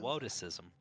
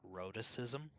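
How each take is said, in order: First: The word begins with a W sound instead. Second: The word begins with a clear R sound.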